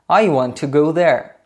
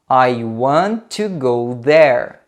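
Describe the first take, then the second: First: It is said at a faster pace. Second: It is said at a slow, careful pace. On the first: "uma vez um pouco mais rápido" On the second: "duas vezes devagar"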